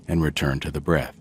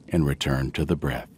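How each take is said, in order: Both takes have the same delivery.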